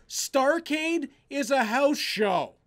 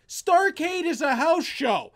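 First: Said in the usual way. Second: "Starrcade is a house show" repeated slowly and forcefully, with extra weight on "Starrcade"; emphatic repeat. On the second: Real, not acted. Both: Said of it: "full stop".

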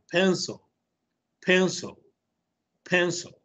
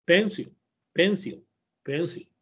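First: "pencil" as PEN-suhl, second vowel very short and neutral; schwa pronunciation. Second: "pencil" read as spelled, PEN-seel, clear i in the second syllable; common mispronunciation. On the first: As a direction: model "pencil" almost as PEN-sol, without a real o. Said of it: "es como una E bien corta". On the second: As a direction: say "pencil" the Spanish way, PEN-sil with a full i. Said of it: "la van a pronunciar igual como la dijo Héctor". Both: Shown as a demonstration.

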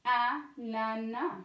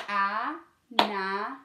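First: Said in the usual way. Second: "Ananas" split into three slow, separate beats, A, na, nas; syllable by syllable. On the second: Shown as a demonstration. Teacher showing children the syllables, "Ananas" beat by beat. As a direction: break "Ananas" into long, spaced-out syllables. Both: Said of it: "on va faire les syllabes".

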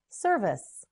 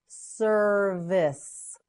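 First: Said in the usual way. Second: "Service" slowly as ser, vice (vis); syllable by syllable. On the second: Shown as a demonstration. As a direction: stretch both syllables of "Service". Teacher models word by syllables.

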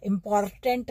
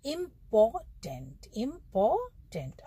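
First: इंपॉर्टेंट with the R strongly sounded; the wrong इंपॉर्टेंट, R pronounced hard. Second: इंपॉर्टेंट slowly, syllable by syllable, no R sound; slow model इंपॉर्टेंट with R silent. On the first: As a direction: lean on the R in इंपॉर्टेंट. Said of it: "आर को हमें जोर से नहीं बोलना है". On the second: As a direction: drop the R in इंपॉर्टेंट and stretch each syllable. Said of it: "आर जो है silent रहेगा". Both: Shown as a demonstration.

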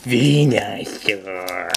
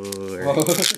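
First: Slow, dopey cartoon Pokemon voice; derpy Venusaur imitation. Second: Venusaur said in a deeper voice; dropping voice deep. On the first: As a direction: drag out Venusaur like a goofy cartoon creature. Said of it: "Trying to imitate the one from Hey You Pikachu". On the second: Shown as a demonstration. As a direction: drop the voice down on Venusaur. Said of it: "Just in, like, a deeper voice".

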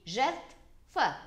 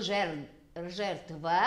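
First: Jertfă said with a clear F after the T; the right form jertfă, T then F; correct F sound. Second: Jertvă said slowly with a V, not F; wrong form jertvă with V, syllables drawn out; wrong V sound. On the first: (jertfă rostit corect, cu F) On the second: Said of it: "nu este cu V". (pronunția greșită jertvă, cu V) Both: Shown as a demonstration.

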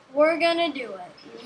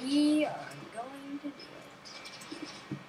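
First: Said in the usual way. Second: Softer, fully spelled-out words; mock-solemn resolve. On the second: Player talking self into the venture, mock-solemn.

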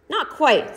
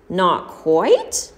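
First: Cool, falling Not quite; calm correction. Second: "Not quite?" rising in alarm; the beggar echoes "Not quite?" with a startled rise; shocked question. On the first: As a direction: Parsons calmly says "Not quite" with a falling end. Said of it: "said Mister Parsons". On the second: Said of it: "shivered crazily". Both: A narrator's reading.

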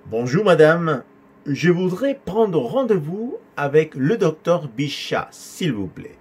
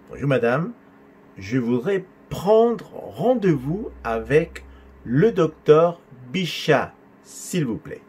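First: Higher, slow but flowing teaching delivery; measured model dialogue. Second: Drawn out, pausing between word groups; slower segmented repeat. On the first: Teacher giving the student's reply to receptionist, measured flow. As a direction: model the caller's line in one steady flow. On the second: Teacher repeating caller's line for student, slow and segmented. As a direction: spell out the request chunk by chunk, slowly. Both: Shown as a demonstration.

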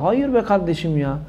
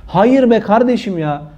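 First: Softer, slow Hayır be kardeşim ya; drawn-out, hushed Hayır be kardeşim ya, almost pleading; quiet and slow. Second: Hayır be kardeşim ya, full voice, slow and firm. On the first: Preacher quietly and slowly rejects "God is up above" to viewers. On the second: Preacher firmly refuses the phrase, slow and emphatic. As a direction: stamp each word of Hayır be kardeşim ya. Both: Shown as a demonstration. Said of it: "repeated louder".

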